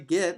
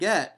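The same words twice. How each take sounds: First: The vowel sounds like the one in 'bit'. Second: The vowel sounds like the one in 'bet'. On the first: This is a regional mispronunciation. The speaker calls it wrong. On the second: This is the standard pronunciation. The speaker calls it right.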